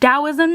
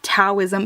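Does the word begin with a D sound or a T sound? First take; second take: D sound; T sound. First: The word begins with a D sound. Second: The word begins with a T sound. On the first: The speaker calls it right. "it's pronounced Taoism, ... It's Tao, as in a D" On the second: The speaker calls it wrong. "not Taoism"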